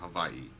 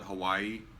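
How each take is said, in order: First: The middle sound is a V. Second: The middle sound is a plain W. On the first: It is the proper local way of saying it. The speaker calls it right. "I'll say it the correct way" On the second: It is the quick everyday way of saying it. The speaker calls it wrong. "I call it Hawaii, okay, because I move fast"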